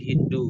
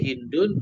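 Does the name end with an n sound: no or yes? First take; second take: no; yes. First: The name ends without a final n sound. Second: The name ends with a final n sound. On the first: "boleh dibaca tidak tanwin" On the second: "boleh dibaca tanwin"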